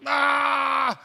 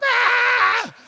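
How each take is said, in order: First: Loud, high fake bawl; mock crying wail. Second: Very high, screaming fake wail; harder mock crying. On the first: Kid starts crying in the hallway, hammed-up wail. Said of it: "I just start crying". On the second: Kid cries harder to wake someone, piercing mock wail. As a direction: bawl much too hard on purpose. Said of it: "I gotta cry a little hard".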